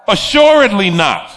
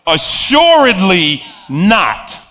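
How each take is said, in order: First: Said in the usual way. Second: Slow, drawn "Assuredly" landing hard; God's final word, slow and firm; emphatic. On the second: Retold or imitated. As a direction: put an exclamation point on "Assuredly not". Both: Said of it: "puts his explanation point on".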